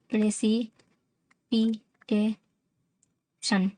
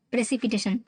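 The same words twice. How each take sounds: First: "precipitation" very slowly in five separate beats; "pray", "सी", "पी", "टे", "शन", pausing after each; syllable by syllable. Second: Said in the usual way. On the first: Shown as a demonstration. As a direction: sound out "precipitation" for learners. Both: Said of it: "पांच syllable हो रहा है".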